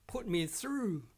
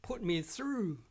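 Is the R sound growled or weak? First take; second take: growled; growled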